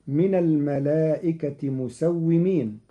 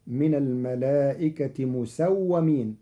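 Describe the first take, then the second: First: "مسومين" as musawwimīn, with i after the w; kasra on the wāw. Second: "مسومين" as musawwamīn, with a after the w; fatha on the wāw. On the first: Teacher reciting the verse before Qalun's change, "مسومين" as musawwimīn. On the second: Teacher showing Qalun's reading, "مسومين" as musawwamīn. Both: Shown as a demonstration. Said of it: "بالفتح في الواو".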